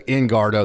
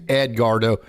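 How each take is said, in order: First: The first syllable is said with an n sound. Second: The first syllable is said with a d sound. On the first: The speaker calls it wrong. "I always say Engardo" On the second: The speaker calls it right. "I know his name's Edgardo"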